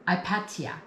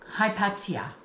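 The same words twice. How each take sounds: First: The name begins with a vowel sound. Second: The name begins with an H sound.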